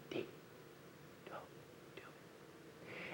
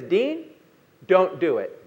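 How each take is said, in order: First: It is said very quietly, almost a whisper. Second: It is said clearly and at full volume.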